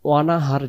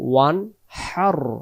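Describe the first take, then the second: First: A vowel is inserted between n and h. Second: The n runs straight into the h. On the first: The speaker calls it wrong. "ওয়ানাহার যেন না হয়" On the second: The speaker calls it right. "উচ্চারণ হবে ওয়ান হার"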